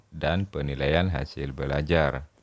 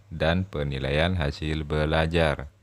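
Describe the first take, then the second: Both takes have the same delivery.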